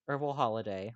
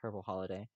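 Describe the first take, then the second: First: Herbal starts with a vowel; no h sound. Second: Herbal starts with a clear h sound.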